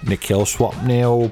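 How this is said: It is said in a put-on British-style voice.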